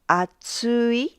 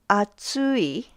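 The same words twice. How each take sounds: First: The pitch rises, then stays level to the end. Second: The pitch rises, then drops at the end. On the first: It means thick. "It stays level after the first mora" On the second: It means hot. "The pitch rises and then drops"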